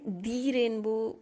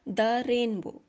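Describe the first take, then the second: First: 'The' is said with a long 'thee' vowel. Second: 'The' is said with a short 'thuh' vowel. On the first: The speaker calls it wrong. "दी rainbow का प्रयोग नहीं किया" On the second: The speaker calls it right. "द rainbow बोला है"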